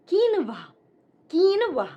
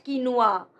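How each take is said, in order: First: "quinoa" as KEEN-wah; correct quinoa. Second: "quinoa" as ki-NOO-ah, slow; mispronounced quinoa. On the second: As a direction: stretch "quinoa" into kee-noo-ah. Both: Shown as a demonstration. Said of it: "not quinoa".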